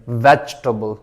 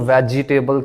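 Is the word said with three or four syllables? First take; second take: three; four. First: A vowel is dropped, giving three syllables. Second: Every vowel is sounded, giving four syllables. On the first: The speaker calls it right. "ए भी नहीं पढ़ेंगे" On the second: The speaker calls it wrong. "ये इसको लोग वेजिटेबल कहते हैं, तो ये वेजिटेबल नहीं है"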